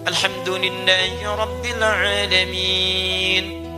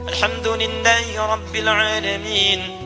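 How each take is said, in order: First: It is recited slowly, followed by a pause. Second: It is recited quickly, running into the next verse. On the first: Those following get time to recite it too. "Anda bisa jedakan dalam setiap ayat" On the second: The recitation moves quickly, as in night prayers. "kalau baca hadar"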